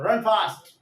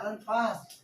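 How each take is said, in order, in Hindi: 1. यह तेज़ और कड़े आदेश की तरह कहा जाता है। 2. इसे नरमी से, प्यार भरे निवेदन की तरह कहा जाता है। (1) "अगर कैप्टन सोल्जर्स को ऑर्डर दे रहा है तो रन फास्ट ऐसा आएगा" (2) "तो मम्मी बोलेगी कि बेटा रन फास्ट"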